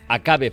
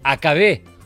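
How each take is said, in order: First: The stress is on the middle syllable. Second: The stress is on the last syllable. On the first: It is a subjunctive form, a wish or possibility. The speaker calls it right. "estaba sin tilde" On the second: It is a past tense, something that happened. The speaker calls it wrong. "han interpretado que podía ser"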